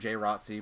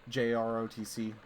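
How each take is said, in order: First: It is said as a single word. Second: Each letter is said separately. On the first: "I've also heard J R O T C, but like say vocalizing it out loud" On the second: "I'm saying it that way. ... I just prefer each of the little letters"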